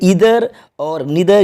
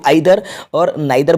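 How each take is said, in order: First: The words begin with an 'ee' vowel sound. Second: The words begin with an 'eye' vowel sound. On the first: "American English में इसका pronunciation होता है" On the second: "British English जो हम use करते हैं इसमें यहाँ पे इसको आइदर और नाइदर बोला जाता है"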